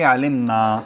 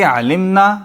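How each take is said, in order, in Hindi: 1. अंतिम स्वर लंबा है। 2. अंतिम स्वर छोटा है। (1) "हम सब ने जाना" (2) "उन सब औरतों ने जाना"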